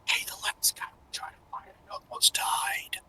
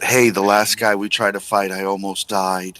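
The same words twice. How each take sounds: First: It is whispered quietly. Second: It is said in a louder voice.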